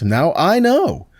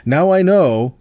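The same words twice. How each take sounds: First: "now I know" said slowly, leaning on "know"; slow, weighty "now I know"; stress on now I know. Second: Said in the usual way. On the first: Shown as a demonstration. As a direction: draw out "now I know" for emphasis. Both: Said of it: "look at this".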